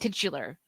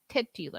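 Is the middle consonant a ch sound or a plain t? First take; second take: ch; plain t. First: It is said fast with a ch sound. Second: It is said slowly with a plain t sound. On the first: "when I say it fast, it sounds like I'm saying titular, like with a ch" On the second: "I'm trying to say it slowly"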